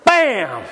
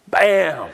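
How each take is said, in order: First: It is said with loud, forceful gusto. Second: It is said with modest energy.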